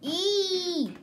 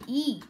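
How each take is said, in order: First: Higher, louder hammed-up E; mock flamingo E. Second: Plain-voiced mock of the flamingo's E. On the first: Boy mocking a YouTuber's catchphrase, higher and louder. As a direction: belt the E as a hammed-up parody. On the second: Boy mocking a YouTuber's catchphrase, mild mock. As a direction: toss off the E lightly. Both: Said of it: "Now I'm making fun of the flamingo".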